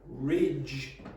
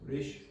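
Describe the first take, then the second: First: The final consonant is voiced, with vibration. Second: The final consonant is voiceless, without vibration. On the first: The speaker calls it right. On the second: The speaker calls it wrong.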